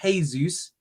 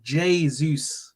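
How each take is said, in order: First: The name begins with an H-like sound. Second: The name begins with a J-like sound. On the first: The speaker calls it wrong. "I got told it's not Jesus. He's not Spanish" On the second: The speaker calls it right. "in Portuguese it is Jesus. They they pronounce the J"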